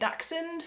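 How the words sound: The word is said with an English pronunciation. "if you want to put a bit of an English accent on it, you can say Dachshund"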